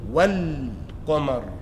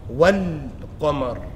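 Both takes have the same delivery.

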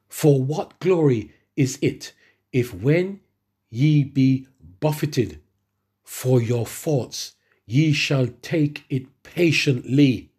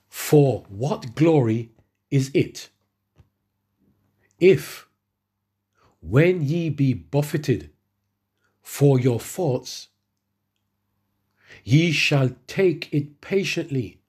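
First: It is read at a normal pace. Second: It is read very slowly.

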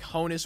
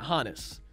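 First: The first syllable sounds like 'ho'. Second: The first syllable does not sound like 'ho'. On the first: "Kind of like Santa says ho" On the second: "like the way I'm saying it"

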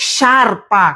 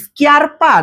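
First: It starts with a plain sh sound. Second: It starts with a hard sk sound. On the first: The speaker calls it right. "কিভাবে উচ্চারণ করতে হবে শার্পা" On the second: The speaker calls it wrong. "কিভাবে উচ্চারণ করতে হবে স্কি, স্কিয়ারপা নাকি শার্পা"

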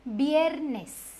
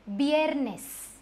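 Both takes have the same delivery.

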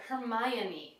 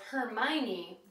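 First: The O sound is pronounced. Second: The O sound is left out. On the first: The speaker calls it right. "you actually do pronounce the O" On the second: The speaker calls it wrong. "I always thought it was Hermione"

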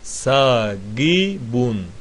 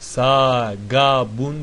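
First: The second vowel is an 'i' sound. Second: The second vowel is an 'a' sound. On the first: The speaker calls it right. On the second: The speaker calls it wrong.

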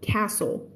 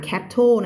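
First: No t sound is heard in the middle. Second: A t sound is heard in the middle. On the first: The speaker calls it right. "ตัว t ไม่ออกเสียงนะคะ" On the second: The speaker calls it wrong. "ตัว t ไม่ออกเสียงนะคะไม่อ่าน"

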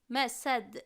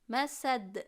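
Both takes have the same delivery.

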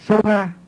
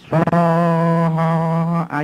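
First: The vowel is said short, in Tibetan style. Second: The vowel is drawn out long, in Sanskrit style. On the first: This is how it is read in Tibetan. "Tây Tạng đọc là" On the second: This is how it is read in Sanskrit. "tiếng Phạn là Swaha dài"

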